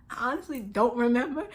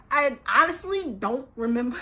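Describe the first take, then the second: First: Laughing. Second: Said in the usual way. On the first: Real, not acted. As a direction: repeat "I honestly don't remember" softer through a laugh.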